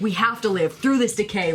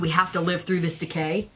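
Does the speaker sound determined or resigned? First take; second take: determined; resigned. First: It sounds determined and empowering, full of resolve. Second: It sounds resigned, like a grim duty. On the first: We will survive this. "Like we will survive. ... very like empowering" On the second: This is simply what must be done. "Did you read it like this is what we have to do?"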